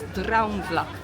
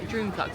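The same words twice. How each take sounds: First: It is said with a Dutch-style pronunciation. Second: It is said with an English-style pronunciation. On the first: The speaker calls it right. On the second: The speaker calls it wrong. "it's not"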